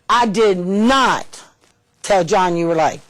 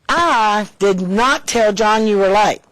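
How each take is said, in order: First: The word not is stressed. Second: The word I is stressed. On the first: The speaker denies doing it. "I, I didn't do it" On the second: Someone else told. "Probably said somebody else did"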